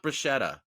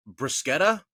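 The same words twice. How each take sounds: First: Bruschetta said with a sh sound, bru-SHET-ta; Americanized bruschetta with sh; wrong pronunciation. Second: Bruschetta said with a hard k, brus-KET-ta; Bruschetta with a k sound in the middle; Italian-style bruschetta, hard k; Italian pronunciation. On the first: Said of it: "It's not bruschetta". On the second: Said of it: "is how you pronounce bruschetta". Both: Shown as a demonstration.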